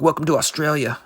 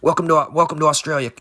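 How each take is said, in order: First: Casual movie-hero one-liner, lightly voiced; Will Smith impression. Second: Put-on light Australian accent on a cocky greeting; mild Australian bloke, a touch louder. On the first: Riffing to a co-host, a light Will Smith line. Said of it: "my Will Smith impression from Independence Day". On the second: Playing the Australian who punched the kangaroo, light Australian accent. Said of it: "in the character of the Australian punching the kangaroo".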